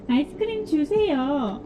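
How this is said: It is said in a cute, childlike voice.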